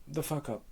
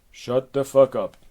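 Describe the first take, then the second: First: High, soft echo; small high-pitched repeat; echoing nymph. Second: Loud, forceful order; angry imperious command; exasperated Hera. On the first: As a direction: parrot the last words softly, high up. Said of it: "you will repeat the last words". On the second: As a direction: silence the nymph loudly. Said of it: "back to Hera". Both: Acted.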